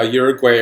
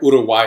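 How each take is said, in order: First: It is said with an English pronunciation. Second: It is said with a Spanish pronunciation. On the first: The speaker calls it wrong. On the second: The speaker calls it right.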